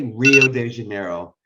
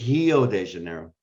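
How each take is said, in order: First: The R is pronounced like an English R. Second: The R is pronounced like an H sound. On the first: The speaker calls it wrong. "they don't say Rio de Janeiro" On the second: The speaker calls it right. "pronounce R's are like H"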